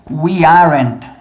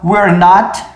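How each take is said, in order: First: Are and not merge into one syllable. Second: We and are merge into one syllable. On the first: "Ou eu posso contrair as duas últimas" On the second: "Eu posso contrair as duas primeiras"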